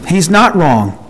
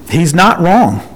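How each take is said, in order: First: "not" pushed up, then a fall; stress on not. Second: "wrong" leaned on, falling at the end; ending weight on "wrong"; stress on wrong. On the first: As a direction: hit "not" firmly. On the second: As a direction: land hard on "wrong". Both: Shown as a demonstration.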